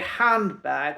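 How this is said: The first vowel is an open 'ah'-like sound. This is the modern pronunciation. "we don't say the ah sound"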